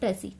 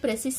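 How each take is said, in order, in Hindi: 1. यह शब्द स्वर पर खत्म होता है, s के बिना। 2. इस शब्द के आखिर में s की आवाज़ सुनाई देती है। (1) "इसको बोलते हैं प्रेसी" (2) "इसको प्रेसिस नहीं बोलते हैं"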